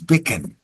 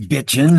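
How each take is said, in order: First: The middle consonant is a k sound. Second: The middle consonant is a ch sound. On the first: This is the anglicized form the family uses. "the general kind of anglicized version uh, my family used is Bicken" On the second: This is how some other people say it. "Now there are people who say bitchin"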